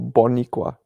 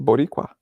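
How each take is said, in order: First: The middle consonant is an N, not rolled. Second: The middle consonant is a rolled R. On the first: The speaker calls it wrong. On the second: The speaker calls it right.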